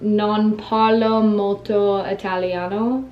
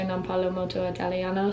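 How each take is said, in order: First: It is said slowly. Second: It is said fast.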